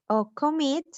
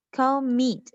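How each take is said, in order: First: Said in the usual way. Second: Commit with the second syllable mit stressed. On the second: Shown as a demonstration. (acento en la segunda sílaba de commit) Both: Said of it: "acá está la mayor fuerza de voz".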